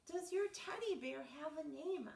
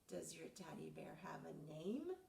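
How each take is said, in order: First: It is said at a louder volume. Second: It is said at a softer volume.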